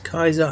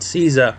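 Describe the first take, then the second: First: The name begins with a hard K sound. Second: The name begins with a soft S sound. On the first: The speaker calls it right. "this is the actual pronunciation is Kaiser" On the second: The speaker calls it wrong. "not Caesar"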